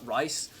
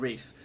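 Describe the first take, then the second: First: The vowel sounds like 'eye', as in 'rice'. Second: The vowel sounds like 'ee', as in 'reese'. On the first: This is how first-time readers misread the name. The speaker calls it wrong. "they always think it's uh, Rice" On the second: This is the name's actual pronunciation. The speaker calls it right. "but it's actually Reese"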